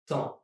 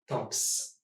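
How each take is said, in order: First: The final P and S are silent. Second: The final P and S are pronounced. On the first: The speaker calls it right. "the P and the S are both silent, which gives me only temps" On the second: The speaker calls it wrong. "and not temps"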